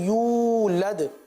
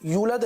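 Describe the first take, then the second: First: The vowel is said long and drawn out. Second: The vowel is said short, not drawn out. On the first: The speaker calls it right. "यूलद खींच कर पढ़ेंगे" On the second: The speaker calls it wrong. "यूलद नहीं है"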